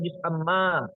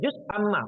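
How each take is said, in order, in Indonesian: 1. Amma diucapkan panjang. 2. Amma diucapkan pendek, tidak panjang. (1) "bukan juz amma" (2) "Maka baca juz amma"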